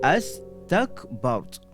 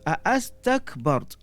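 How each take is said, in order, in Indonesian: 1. Kedua onset itu menyatu menjadi satu di awal. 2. Di awal terdengar dua onset vokal yang terpisah. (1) "Jadi gabung jadi astakbart" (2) "contoh a'astakbart"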